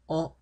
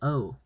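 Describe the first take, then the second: First: It sounds like the vowel in dog. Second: It sounds like the English letter name O. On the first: The speaker calls it right. "it's O, as in dog" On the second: The speaker calls it wrong. "O is also not O"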